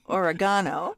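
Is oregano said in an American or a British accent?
British. It is said in a British accent.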